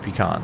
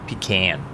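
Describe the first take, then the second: First: The first syllable does not sound like 'pee'. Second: The first syllable sounds like 'pee'. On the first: The speaker calls it right. "That's the way I say it too" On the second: The speaker calls it wrong. "not pe- pecan. Mike, we don't pee in a can"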